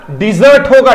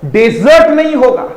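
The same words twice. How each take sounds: First: डिजर्ट said as dee-ZERT, stress on the second syllable; teacher modelling डिजर्ट as dee-ZERT; correct pronunciation. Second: डेजर्ट said as DEZ-ert, stress on the first syllable; teacher showing the wrong DEZ-ert for डेजर्ट; wrong pronunciation. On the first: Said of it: "तब इसका pronunciation डिजर्ट होगा". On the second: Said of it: "तब इसका मतलब डिजर्ट होगा". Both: Shown as a demonstration.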